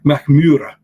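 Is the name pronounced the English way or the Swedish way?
Swedish. The name is said with Swedish pronunciation.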